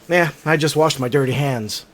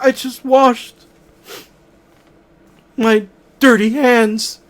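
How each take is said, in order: First: It is said in a plain, matter-of-fact way. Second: It is said in a sad, upset way.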